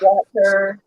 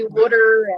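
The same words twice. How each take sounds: First: It is said with a standard accent. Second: It is said with a Baltimore accent. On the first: "instead of" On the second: "I have an accent, so I'm from Baltimore. I say"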